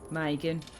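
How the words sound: It is said in a British English accent. "But in in British English, say Megan"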